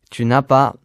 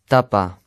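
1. Chaque syllabe est prononcée entièrement. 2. Des sons sont omis et les mots s'enchaînent.

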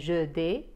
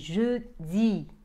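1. La voyelle finale est une autre voyelle peu claire. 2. La voyelle finale est un 'ee' net. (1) "ou bien je dis" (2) "c'est je dis"

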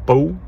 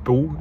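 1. De naam wordt met een Franse uitspraak gezegd. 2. De naam wordt met een Franse uitspraak gezegd.

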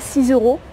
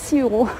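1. Un son z fait la liaison entre six et euros. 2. Six et euros se disent sans liaison. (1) "je dis pas 6 euros" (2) "mais 6 euros. Je fais pas de liaison"

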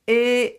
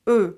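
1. De klinker wordt gevormd met niet-afgeronde lippen. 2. De klinker wordt gevormd met afgeronde lippen. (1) "It's not E" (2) "my mouth is round like that"

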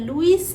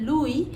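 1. নামটি s ধ্বনি দিয়ে শেষ হয়। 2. নামটি স্বরধ্বনি দিয়ে শেষ হয়। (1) "এটা লুইস না" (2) "এটা হচ্ছে লুই"

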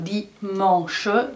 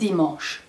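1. A végén hallatszik egy magánhangzó. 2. A végén nem hallatszik magánhangzó. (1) "A ö betűt a végén nem nagyon mondjuk" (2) "de úgy mondjuk"

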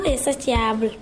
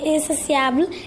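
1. La consonne du milieu se prononce comme un son t. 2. La consonne du milieu se prononce comme un son s. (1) "et non insatiable" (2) "il faut bien prononcer insatiable"

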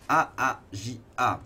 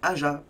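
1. Le nom s'épelle lettre par lettre. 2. Le nom se dit comme un seul mot. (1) "il faut prononcer les lettres" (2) "c'est beaucoup trop relou à dire, donc Aja"

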